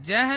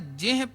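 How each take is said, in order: First: The vowel after j sounds like a. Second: The vowel after j sounds like i. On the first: The speaker calls it wrong. "ਜਹ ਨਹੀਂ ਪੜ੍ਹਨਾ" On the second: The speaker calls it right. "ਜਿਹ ਪੜ੍ਹਨਾ ਹੈ। ਜੱਜੇ ਦੇ ਸਿਹਾਰੀ ਲੱਗੀ ਹੈ"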